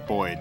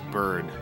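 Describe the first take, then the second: First: The vowel sounds like 'oy', as in 'Boyd'. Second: The vowel is a plain 'er' sound.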